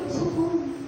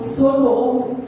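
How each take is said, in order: First: It is said quietly, without shouting. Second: It is shouted at full volume.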